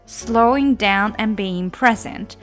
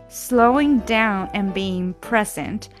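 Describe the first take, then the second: No difference in how they are said.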